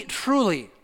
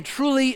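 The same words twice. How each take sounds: First: Said in the usual way. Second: "truly" lifted high and stressed; emphatic truly. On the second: Shown as a demonstration. Preacher echoing Jesus' double "truly", first one stressed high. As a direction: lean hard on the first "truly". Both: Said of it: "two words of emphasis".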